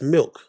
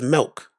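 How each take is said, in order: First: The vowel sounds like the i in sit. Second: The vowel sounds like the e in bed. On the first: The speaker calls it right. "It's milk" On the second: The speaker calls it wrong. "He says milk. There's no E in milk"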